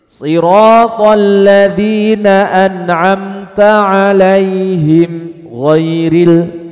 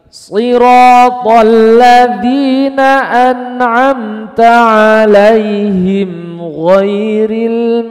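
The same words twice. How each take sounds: First: There is a brief stop before ghairil. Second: The words run on without a stop. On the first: The speaker calls it wrong. "Ini namanya saktah, enggak boleh" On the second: The speaker calls it right. "Tapi diwasal"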